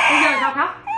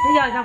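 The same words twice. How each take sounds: First: Said in the usual way. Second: Put-on much higher, playful baby-talk pitch; squeaky high mock. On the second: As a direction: echo the question in a tiny high voice. Mother repeats question to toddler. (giọng the thé trêu con)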